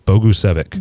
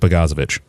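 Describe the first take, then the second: First: The name is said as Bogusevic. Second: The name is said as Bogozovic. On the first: The speaker calls it right. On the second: The speaker calls it wrong.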